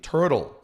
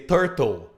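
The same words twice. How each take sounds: First: It is said with an American English accent. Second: It is said with a Brazilian Portuguese accent. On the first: The speaker calls it right. "they say it turtle" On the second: The speaker calls it wrong. "we Brazilians normally say turtle"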